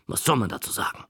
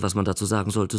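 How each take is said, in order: First: Puzzled aside. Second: Said in the usual way. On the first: Shown as a demonstration. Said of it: "Da ich auch nicht wusste, was man dazu sagen sollte". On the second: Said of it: "Da ich auch nicht wusste".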